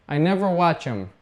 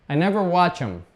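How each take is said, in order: No difference in how they are said.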